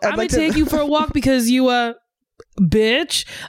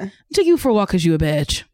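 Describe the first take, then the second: First: There is a pause before the last word. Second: There is no pause before the last word. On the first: "I would look up and then deliver bitch" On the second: "you don't have to do that on every single line. You just like"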